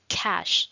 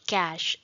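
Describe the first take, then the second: First: The first sound is a breathy aspirated k. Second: The first sound is a plain unaspirated k. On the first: The speaker calls it right. "कैश में C में थोड़ा सा ख की voice आएगी" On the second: The speaker calls it wrong. "it's not cash"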